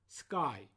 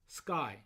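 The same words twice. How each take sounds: The two takes are said the same way.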